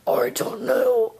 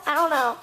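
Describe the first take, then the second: First: Low, slow disguised voice; changed voice. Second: Said in the usual way. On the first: Acted. Clone dodging Yanni's question about the voice, in a suddenly lowered voice. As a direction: drop the pitch and drag it out, covering up. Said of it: "Why did your voice change like that".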